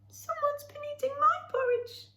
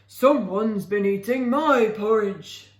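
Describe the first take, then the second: First: A high squeaky voice for Baby Bear. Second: A deep growling voice for Father Bear.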